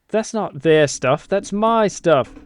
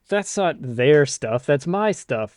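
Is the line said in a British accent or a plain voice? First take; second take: British accent; plain voice. First: It is said in a put-on British accent. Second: It is said in the speaker's plain voice. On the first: The speaker calls it right. "sounds like an awful lovely British British boy" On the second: The speaker calls it wrong. "I should have said that in an accent"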